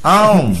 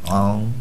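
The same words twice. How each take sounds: First: Said in the usual way. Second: Low, soft, drawn-out chewing grunt; imitating a sluggish gum chewer; mock slow chewing sound. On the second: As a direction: chew it lazily and deep. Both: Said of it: "ये चबा रहा धीरे धीरे".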